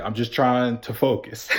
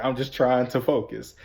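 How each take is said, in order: First: Words through laughter; can't hold the laugh in. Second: Said in the usual way. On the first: Retold or imitated. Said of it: "And I was like". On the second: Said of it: "I was just like".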